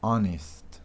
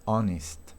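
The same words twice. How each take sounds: The two takes are said the same way.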